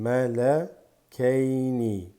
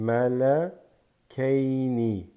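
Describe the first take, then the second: Both takes have the same delivery.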